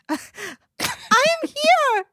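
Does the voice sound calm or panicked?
panicked. The voice sounds panicked and strange. "in this panicked voice"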